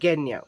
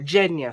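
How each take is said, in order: First: The name begins with a hard G sound. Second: The name begins with a soft J sound. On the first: This is how the reader took it from the book. "how I read it in the book was Genya with a G" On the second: This is how the screen adaptation says it. "in the series they call her Genya"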